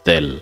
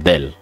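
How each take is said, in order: Both takes have the same delivery.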